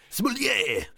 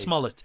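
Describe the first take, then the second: First: "Smollett!" said as smoo-LYAY, French style, higher; mock French name. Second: Said in the usual way.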